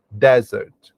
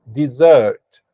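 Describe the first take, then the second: First: Desert with the stress on the first syllable; desert, first syllable stressed, second weak; pronunciation demo. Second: Dessert with the stress on the second syllable; dessert, second syllable louder and longer; pronunciation demo. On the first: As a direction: say desert as DEZ-ert, stress at the front. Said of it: "da forma que eu pronunciei". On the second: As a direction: say dessert as di-ZERT, stress at the end. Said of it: "E se pronuncia dessa forma". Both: Shown as a demonstration.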